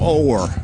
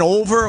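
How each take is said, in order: First: The word is said with one syllable. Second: The word is said with two syllables. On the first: "a single syllable" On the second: "Rain over or o'er?"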